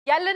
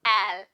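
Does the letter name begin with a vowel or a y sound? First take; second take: y sound; vowel. First: The letter name begins with a y sound. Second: The letter name begins with a plain vowel. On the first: The speaker calls it wrong. "यल नहीं" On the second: The speaker calls it right. "That is एल"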